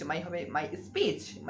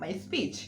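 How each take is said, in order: First: My speech drawn out very slowly, word by word; very slow teacher demo of my speech; slow drill. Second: Said in the usual way. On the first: Shown as a demonstration. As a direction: stretch out my speech for learners. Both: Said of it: "সেটা speech".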